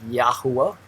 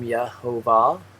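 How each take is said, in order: First: The name is said as Yahuwah. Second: The name is said as Yehovah. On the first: This is how the speaker says the name. "I pronounce it Yahuwah" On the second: This is how another person says the name. "He he does pronounce the name Yehovah"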